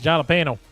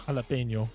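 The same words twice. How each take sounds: First: The middle consonant is a plain n. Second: The middle consonant is an ny sound. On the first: "if we're talking with a Texan Spanish accent" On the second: "I know it's jalapeno"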